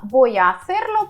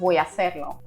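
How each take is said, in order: First: Each word is pronounced separately and fully. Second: The words are blended into one chunk.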